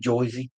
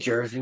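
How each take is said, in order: First: Said New York-style, with an 'oy' vowel. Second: Said in the plain local accent with an r. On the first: This is how people from elsewhere say it. "we don't say Joyzy" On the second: This is how the local people say it. "say Jersey"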